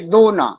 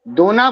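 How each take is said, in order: First: It has a short break between the syllables. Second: It is said as one unbroken word. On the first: Please give. "मुझे भी थोड़ी मिठाई दो ना" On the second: A leaf bowl. "वह दोना भरकर मिठाई लाई"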